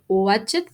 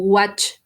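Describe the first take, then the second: First: The ending is said as an extra syllable. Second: The word is said as a single syllable. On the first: The speaker calls it wrong. "se diría" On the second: The speaker calls it right. "la pronunciación correcta es watch"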